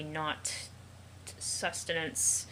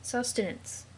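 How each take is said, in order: First: Stretched out slowly, syllable by syllable. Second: Said in the usual way. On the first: Acted. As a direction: spell out sustenance slowly like to a child. Drawn out, correcting the pet.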